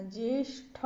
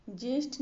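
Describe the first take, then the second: First: ज्येष्ठ ended with breathed THA; correct aspirated TH. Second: ज्येष्ठ ended with plain T; wrong unaspirated T. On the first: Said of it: "होता है". (ज्येष्ठ के अंत में "ठ") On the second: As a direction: say ज्येष्ठ as "jesht". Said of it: "नहीं होता". (ज्येष्ठ के अंत में "ट") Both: Shown as a demonstration.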